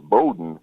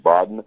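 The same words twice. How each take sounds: First: "Bowden" with a long O, like "boat"; "Bowden" opening on a round long O. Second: "Baden" with a short first vowel, like "bad" or "bod"; "Baden" without the long O sound. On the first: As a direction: say "Bowden" as BOH-den. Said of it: "the reason it's pronounced Bowden". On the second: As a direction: say "Baden" as the phonetic spelling reads, no long O. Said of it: "or pronounced it Baden". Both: Shown as a demonstration.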